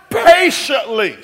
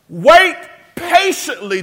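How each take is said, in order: First: "Patiently" shouted slowly; shouted answer. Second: "Wait" high and loud, then "patiently" hammered; "patiently" emphatisch en hoog benadrukt; stress on patiently. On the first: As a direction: roar out "Patiently", stretched. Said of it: "but it says wait how?". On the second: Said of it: "The adverb describes how we should wait". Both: Shown as a demonstration.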